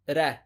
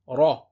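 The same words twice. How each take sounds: First: The r sound is light and thin. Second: The r sound is heavy and thick. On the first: The speaker calls it wrong. "Common mistake is to say ra" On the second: The speaker calls it right. "The correct pronunciation, remember, is to say ra"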